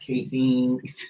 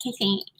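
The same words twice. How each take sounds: First: Thin reedy voice. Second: Softer weedy housewife voice; clipped weedy little thanks. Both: Retold or imitated. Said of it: "put on this weedy little voice".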